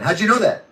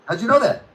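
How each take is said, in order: First: Sarcastic, faintly raised question; mock surprise. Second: The same question pitched higher in fake astonishment; mock gasp of wonder; hammed-up mock surprise. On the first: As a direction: feign being impressed. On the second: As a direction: overplay the disbelief, sarcastically. Repeat pushed higher, mocking.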